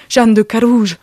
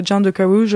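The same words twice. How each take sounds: First: Hammed-up theatrical imitation, louder; théâtral. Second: Put-on English accent. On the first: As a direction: proclaim "Jeanne de Carouge" like a stage actor. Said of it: "comme ça aussi, euh, théâtre". (imitation théâtrale et appuyée) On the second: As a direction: say the French name with an English accent. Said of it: "en anglais". (léger accent anglais sur un nom français)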